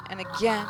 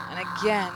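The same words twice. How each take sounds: The two takes are said the same way.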